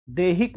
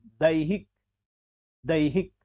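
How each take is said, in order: First: दैहिक as "dehik"; wrong e vowel. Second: दैहिक as "da-i-hik"; ai diphthong. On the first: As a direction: say दैहिक with a pure e. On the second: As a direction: glide a to i in दैहिक. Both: Shown as a demonstration. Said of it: "दैहिक नहीं".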